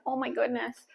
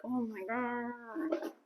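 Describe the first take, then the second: First: Said in the usual way. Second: Slow, quiet drawn-out groan; exasperated drawl. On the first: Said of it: "I say things like". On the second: Shown as a demonstration. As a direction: stretch it out, worn out. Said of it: "if this was me in real life".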